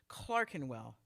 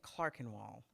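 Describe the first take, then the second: First: Only the first E sounds changed. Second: More than the first E sounds changed. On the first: This is the local, correct pronunciation. The speaker calls it right. "the owner of the hotel clarified" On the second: This is a visitor's failed attempt at it. The speaker calls it wrong. "couldn't get the hang of deforming only the one E"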